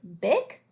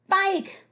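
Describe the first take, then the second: First: The vowel is a short i sound. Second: The vowel is a long i sound. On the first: The speaker calls it wrong. "We know we can't ride a Bic. That doesn't make any sense" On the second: The speaker calls it right. "makes all vowel sounds say its long name"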